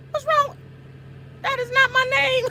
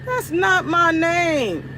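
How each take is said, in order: First: Exasperated high whine at Paul; "That is not my name" with "not" stressed, all pitched high; high-pitched protest. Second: "That's" stressed, every word stretched slow; slow drawn-out protest. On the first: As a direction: squeak "not my name" much higher. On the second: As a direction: drag out "That's not my name" slowly. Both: Shown as a demonstration. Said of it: "repeats the complaint".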